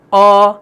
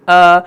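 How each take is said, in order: First: Heavy, rounded long آ; dark, thick آ; thick alif. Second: Light, open long آ; fine, thin آ; thin alif. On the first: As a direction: hold آ with a full mouth. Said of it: "پہلے والے الف کی آواز آ". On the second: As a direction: hold آ without rounding. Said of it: "بعد والے الف کی آ". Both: Shown as a demonstration.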